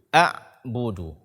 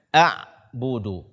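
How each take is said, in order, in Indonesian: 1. Bunyinya tiba-tiba tertahan di ain. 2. Bunyinya tiba-tiba tertahan di ain.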